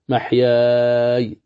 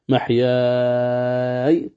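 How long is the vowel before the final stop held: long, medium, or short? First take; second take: medium; long. First: The final long vowel is held moderately long. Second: The final long vowel is held very long. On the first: "محياي توسط" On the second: "محياي طول"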